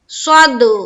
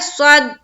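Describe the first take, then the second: First: The final d bounces with an echoing release. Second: The final d stops flat without any echo. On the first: The speaker calls it right. "हमें करना है स्वाद दाल जबर स्वद" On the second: The speaker calls it wrong. "कलकला नहीं हुआ"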